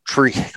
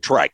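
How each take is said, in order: First: The surname's vowel sounds like 'ee'. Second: The surname's vowel sounds like 'eye'. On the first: The speaker calls it right. "It's Treach" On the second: The speaker calls it wrong. "I always call you [name]. Am I saying that right?"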